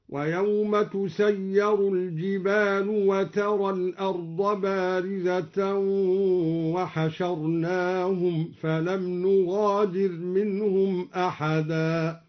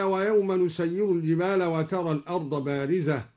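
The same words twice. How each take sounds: First: Slow chant, تسير الجبال as tusayyaru l-jibalu; passive with ta. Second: Said in the usual way. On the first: Shown as a demonstration. Teacher shows al-Duri's reading, chanting tusayyaru l-jibalu for تسير الجبال. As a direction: recite slowly, tu- opening تسير and u ending الجبال. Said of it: "قرأ الدوري بتاء التأنيث مضمومة وفتح الياء".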